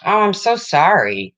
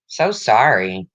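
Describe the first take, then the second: First: Higher, louder "Oh, I'm so sorry" with a stretched so; a quick burst of sympathy for a viewer's loss; sympathetic exclamation. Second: Slow, lower "So sorry" with a long, heavy so; sincere condolence. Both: Real, not acted. Condolence to a viewer.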